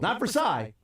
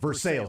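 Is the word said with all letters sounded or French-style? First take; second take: French-style; all letters. First: It is said the French way, like 'ver-sigh'. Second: Every letter is sounded, like 'ver-sails'. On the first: The speaker calls it wrong. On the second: The speaker calls it right. "you have to pronounce each and every letter"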